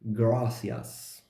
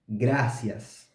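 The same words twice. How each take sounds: First: The r is a soft English-like approximant. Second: The r is a trilled Spanish r. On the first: The speaker calls it wrong. "not with the trill sound but with the approximant sound, which is the sound of the R in English" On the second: The speaker calls it right. "not with the trill sound"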